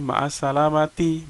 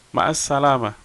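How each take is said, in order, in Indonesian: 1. Kata terakhir berakhir dengan vokal penuh. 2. Kata terakhir berakhir tanpa vokal akhirnya. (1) "boleh. Cuman itu jarang disampaikan"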